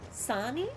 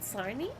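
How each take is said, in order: First: The word is said without an R sound. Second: The word is said with an R sound. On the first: "You don't pronounce the R?" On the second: "Not Sarni?"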